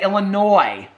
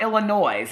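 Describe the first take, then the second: First: The word ends without any S sound. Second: The word ends with an audible S sound. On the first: The speaker calls it right. "You say Illinois. You don't say Illinois with an S" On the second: The speaker calls it wrong. "It's not Illinois"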